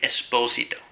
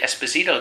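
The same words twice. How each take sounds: First: The name is said with an Italian pronunciation. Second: The name is said with an English pronunciation. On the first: "They'd say Esposito" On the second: "In Italy, they wouldn't say Esposito"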